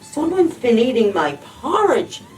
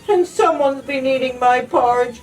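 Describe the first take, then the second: First: It is gasped in Mommy Bear's breathless voice. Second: It is cried in Baby Bear's small voice.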